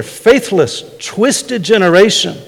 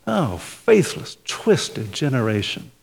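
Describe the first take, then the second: First: Stern rebuke. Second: Slow, soft, loving rebuke. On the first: Shown as a demonstration. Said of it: "The same, same word there". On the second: Retold or imitated. Jesus gently rebuking his slow disciples, soft and slow. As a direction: say it with love, not anger. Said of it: "when Jesus says".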